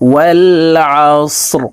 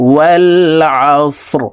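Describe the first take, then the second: The two takes are said the same way.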